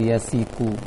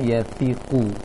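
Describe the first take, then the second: First: The middle consonant is a plain s sound. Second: The middle consonant is a lisped th sound. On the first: The speaker calls it wrong. "jangan su seperti sin biasa, atau yasiku" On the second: The speaker calls it right. "seharusnya yatiku"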